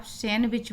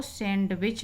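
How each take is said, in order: First: सैंडविच as 'san-wich', no D; correct pronunciation. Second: सैंडविच with an audible D, 'sand-wich'; wrong pronunciation. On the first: Teacher tells students the form from now on, D silent. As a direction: let N run straight into W in सैंडविच. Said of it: "आगे से आप सैंडविच बोलेंगे". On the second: Teacher repeats what to avoid, D pronounced. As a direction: sound the D in सैंडविच. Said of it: "इसको सैंडविच नहीं". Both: Shown as a demonstration.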